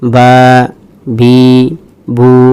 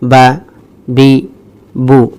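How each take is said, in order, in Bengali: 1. শব্দাংশগুলো ধীরে বলা হয়, স্বরধ্বনি টেনে বলা হয়। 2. শব্দাংশগুলো দ্রুত বলা হয়, স্বরধ্বনি হ্রস্ব। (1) "এভাবে পড়া যাবে না, এভাবে পড়লে ভুল হবে" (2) "দ্রুত তাড়াতাড়ি পড়তে হবে"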